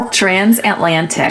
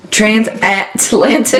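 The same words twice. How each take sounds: First: "Transatlantic" slow, stressing -lan-; slow model pronunciation. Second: "transatlantic" said slowly, each syllable clear; careful slow pronunciation. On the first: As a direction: model "Transatlantic" slowly and clearly. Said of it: "you gotta say it like that". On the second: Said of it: "why can't I say it?". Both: Shown as a demonstration.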